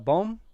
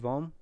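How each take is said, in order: First: The name begins with a B sound. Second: The name begins with a V sound.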